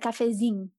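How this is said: The ending is clipped to sound like zing. "I say cafezinho, which is it comes from the Minas region"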